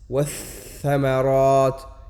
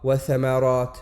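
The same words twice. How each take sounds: First: Wath-thamarat très lentement, le th doublé et tenu; shadda insistée. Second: Wath-thamarat au rythme normal, le th simple; forme sans shadda. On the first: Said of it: "On insiste sur la lettre". (insister sur la lettre) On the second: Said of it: "Et non pas". (th simple, sans insister) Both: Shown as a demonstration.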